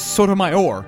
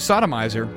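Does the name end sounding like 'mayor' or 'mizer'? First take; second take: mayor; mizer. First: The name ends with a 'mayor' sound. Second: The name ends with a 'mizer' sound. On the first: The speaker calls it right. "But then I learned it was Sotomayor" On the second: The speaker calls it wrong. "I always used to pronounce her name Sodomizer"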